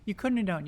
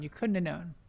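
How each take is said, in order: First: Said in the usual way. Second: Quieter, sympathetic repeat; soft consoling aside; softer repeat. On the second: Real, not acted. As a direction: let it drop gently as consolation. Consoling a player for wards.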